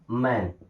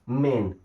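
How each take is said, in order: First: The vowel sounds like the one in cat. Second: The vowel sounds like the one in day. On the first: The speaker calls it wrong. "नब्बे percent लोग इसे मैन बोलते हैं ... जो कि गलत है" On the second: The speaker calls it right. "ए और आई मिलके बनाते हैं ए की मात्रा"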